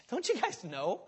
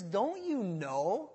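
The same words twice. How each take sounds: First: Casual, offhand question with a laugh; nonchalant. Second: Slow, drawn-out shaming question; shaming rebuke. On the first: Paul casually reminding believers, offhand and amused. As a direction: toss it off like it's obvious. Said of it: "He's saying it so nonchalantly". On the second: Paul chiding the forgetful church, slow shaming question. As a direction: let them feel the shame, slowly. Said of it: "It's a shameful thing". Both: Retold or imitated.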